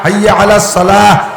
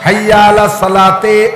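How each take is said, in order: First: The last word ends with a soft 'h' sound. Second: The last word ends with a 'te' sound. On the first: The speaker calls it right. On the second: The speaker calls it wrong.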